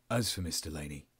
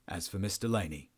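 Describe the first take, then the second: First: Low, subdued officer's delivery; low and matter-of-fact, in character; corrected officer's voice. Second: Officer's line slipping into the captive's voice; lightly voiced captive, not the officer; Adrian's voice by mistake. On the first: Acted. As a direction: retake it deeper, as the interrogator. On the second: Real, not acted. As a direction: let the wrong character's voice creep in. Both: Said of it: "now I'm Adrian as well as".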